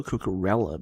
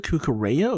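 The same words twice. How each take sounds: First: Cucurella said "koo-koo-REL-uh"; Cucurella with L sound. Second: Cucurella said "koo-koo-RAY-uh"; Cucurella with Y sound. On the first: Commentator told the player's Catalan, Cucurella with an L sound. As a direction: say Cucurella with a plain L, Catalan style. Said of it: "it's just a L sound". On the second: Commentator weighing two name pronunciations, Cucurella with a Y sound. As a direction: say Cucurella with the double L as a Y. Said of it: "it's not a Y sound". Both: Shown as a demonstration.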